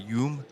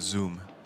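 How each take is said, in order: First: The name begins with a y sound. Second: The name begins with a z sound. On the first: This is the southern pronunciation. "if he's from South Vietnam, it's more a Yoom" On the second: This is the northern pronunciation. "North is more of a Zoom"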